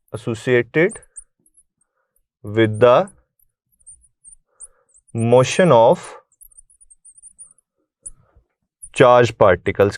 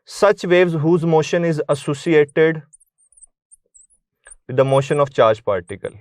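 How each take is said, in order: First: Chunked into short pieces with long pauses; word-by-word dictation. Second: Reading a definition out slowly for notes; slow dictation. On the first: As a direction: break it up phrase by phrase so students can keep up. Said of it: "क्या मतलब है इसका". (रुक-रुक कर, टुकड़ों में लिखवाना) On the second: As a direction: dictate the line slowly, evenly, for students to write. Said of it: "क्या होती हैं?". (धीमी गति से परिभाषा लिखवाना) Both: Shown as a demonstration.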